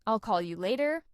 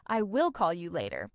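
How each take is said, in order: First: "I'll" as one syllable, "later" rising at the end; relaxed "I'll call you later", words linked; casual contraction. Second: "I will" as two separate words, "will" stressed; careful, lower-pitched "I will call you later"; full uncontracted form. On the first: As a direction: run "I'll" straight into "call". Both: Shown as a demonstration. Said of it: "instead of".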